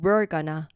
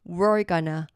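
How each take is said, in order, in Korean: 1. We와 are는 하나의 음절로 연결돼요. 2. We와 are는 하나의 음절로 연결돼요.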